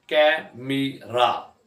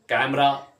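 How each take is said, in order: First: कैमरा very slowly in three separate beats; drawn-out, broken-up कैमरा; syllable by syllable. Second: Said in the usual way. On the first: Shown as a demonstration. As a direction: pause after each syllable of कैमरा. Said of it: "तीन syllable हैं". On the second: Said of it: "अब जब इकट्ठे होते हैं".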